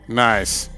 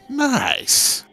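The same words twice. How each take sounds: First: It is said in a sarcastic, disapproving way. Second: It is said in a sincere, genuinely pleased way. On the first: The thing is actually bad. "then I actually mean that's bad" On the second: The thing really is good. "then I actually mean nice"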